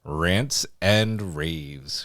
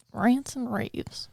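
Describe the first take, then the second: First: Slow announcer. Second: Announcer drawl, very slow; slow drawn-out announcement. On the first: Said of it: "Let's get into some". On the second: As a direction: stretch each word out slowly. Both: Shown as a demonstration.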